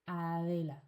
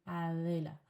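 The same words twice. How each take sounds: The two takes are said the same way.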